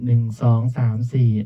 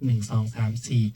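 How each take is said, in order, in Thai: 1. เสียงมีรีเวิร์บเพิ่มเข้ามา ค่อย ๆ กลายเป็นเสียงสะท้อน 2. เสียงถูกเพิ่มย่านเสียงแหลมขึ้นมาก ทำให้แหลมและสดใส (1) "ต่อมามาดูที่รีเวิร์บ แอนแมวก็จะเร่งขึ้นทีละนิด" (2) "อันนี้ก็จะเป็นจังหวะเสียงแหลมสูงสุด"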